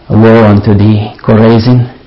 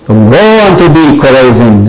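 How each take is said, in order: First: It is spoken with a sorrowful, compassionate tone. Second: It is spoken with a bitter, angry tone. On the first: The speaker grieves over the listeners' fate. "or did he say" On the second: The speaker condemns the listeners in anger. "Did he say that with bitterness, with anger"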